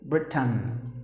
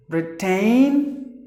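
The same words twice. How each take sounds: First: "Britain" clipped to BRIT-n, falling; correct pronunciation. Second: "Britain" with a long ay sound, brit-TAIN, rising; the mispronounced "Britain" as a warning; wrong pronunciation. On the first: Teacher correcting the word "Britain" for learners. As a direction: say "Britain" short, ending in a soft n. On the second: Teacher showing learners the wrong way to say "Britain". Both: Shown as a demonstration. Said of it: "no, no".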